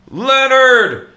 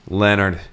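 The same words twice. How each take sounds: First: The name is yelled at full volume. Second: The name is called with a slightly raised voice.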